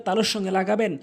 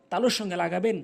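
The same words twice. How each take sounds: The two takes are said the same way.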